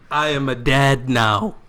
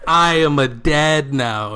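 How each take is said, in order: First: I am a dad now, slow and weighty, each word set apart; emphatic repeat. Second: Even slower and louder, with "I" punched; stronger emphatic repeat. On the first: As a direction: hammer home "dad" slowly. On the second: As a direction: lean hard on "I" and drag it out. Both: Acted. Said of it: "I am repeating it for emphasis".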